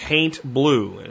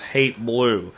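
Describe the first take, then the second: First: The first word rhymes with ain't, with an n. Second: The first word sounds like hate, with no n. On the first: The speaker calls it right. "like ain't, but with an H" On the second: The speaker calls it wrong. "I'm probably pronouncing it wrong"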